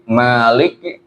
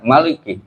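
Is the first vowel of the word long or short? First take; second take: long; short. First: The first vowel is held long. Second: The first vowel is kept short. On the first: "mimnya dipanjangkan dua harkat" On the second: "Ada yang baca satu harkat"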